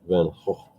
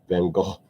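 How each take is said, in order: First: Van Gogh is said the Dutch way. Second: Van Gogh is said the British English way. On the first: "they say it's more of a Gogh. So he would be Vincent van Gogh" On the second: "not like in England, they tend to say Van Gogh"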